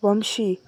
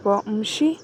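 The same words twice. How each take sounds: First: Vamshi said with a firm falling close; flat menacing name. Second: Vamshi lifted into a rising question; puzzled question. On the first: Husband accusing her, Vamshi said with a hard falling tone. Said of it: "ಕೊಲೆ ಮಾಡೋ ಥರ ನೋಡ್ತಾ". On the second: Wife repeating the name to herself, Vamshi rising in puzzlement. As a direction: ask Vamshi back, bewildered and rising. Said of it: "ನನ್ನಲ್ಲೇ ಅಂದ್ಕೊಳ್ತಾ". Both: A narrator's reading.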